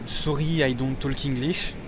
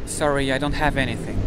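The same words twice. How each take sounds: First: Put-on halting English in a thick French accent, softer. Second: Put-on show-off native English accent; best English accent. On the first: Frenchman dodging a request for money, put-on French accent. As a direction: play the Frenchman who speaks no English. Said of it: "invoquer mon accent français et faire croire que je parle pas anglais". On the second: Frenchman proudly refusing money in England, best English accent. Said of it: "je prends mon meilleur accent pour dire".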